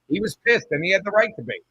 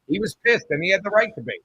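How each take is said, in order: Both takes have the same delivery.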